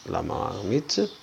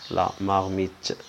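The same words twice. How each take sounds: The two takes are said the same way.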